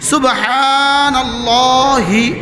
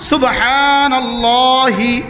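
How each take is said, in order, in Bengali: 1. শব্দটি হ্রস্ব ই-কার দিয়ে শেষ হয়। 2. শব্দটি হ্রস্ব ই-কার দিয়ে শেষ হয়।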